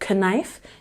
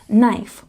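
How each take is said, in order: First: The K at the start is pronounced. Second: The K at the start is silent. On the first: The speaker calls it wrong. "You don't say knife" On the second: The speaker calls it right. "you say knife with the long I sound"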